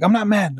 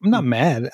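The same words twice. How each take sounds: First: High-pitched retold denial; agitated protest. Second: Said in the usual way. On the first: Dad to family telling him calm down, agitated. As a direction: imitate yourself protesting too much, pitch jumping up.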